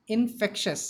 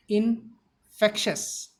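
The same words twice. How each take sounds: First: Said in the usual way. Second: INFECTIOUS split with a pause after in; broken into parts. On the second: Shown as a demonstration. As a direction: say in, pause, then fectious for infectious. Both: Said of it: "The pronunciation of the word is".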